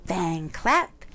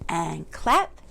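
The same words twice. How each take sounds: The two takes are said the same way.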